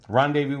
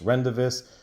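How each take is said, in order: First: The name ends with a 'voo' sound. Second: The name ends with a 'vis' sound. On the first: The speaker calls it right. "I got the right pronunciation" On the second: The speaker calls it wrong. "I used to call this Rendavis"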